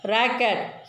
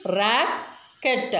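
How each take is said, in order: First: Said in the usual way. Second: "racket" broken in two, with a gap before the second syllable; split into syllables. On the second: Shown as a demonstration. Teacher showing children two syllables, "racket" split apart. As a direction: say "racket" as two separate beats. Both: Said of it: "We want to separate like this only".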